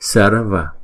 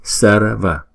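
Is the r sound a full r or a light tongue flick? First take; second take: tongue flick; tongue flick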